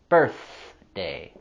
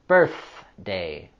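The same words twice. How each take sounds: First: The th sound is voiceless. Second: The th sound is voiceless.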